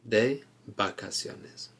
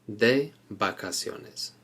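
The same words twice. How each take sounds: No difference in how they are said.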